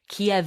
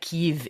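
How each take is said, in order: First: The city name is pronounced the Russian way. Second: The city name is pronounced the Ukrainian way. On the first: "pronounced Kiev in Russian" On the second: "but more like Kyiv in um, Ukrainian"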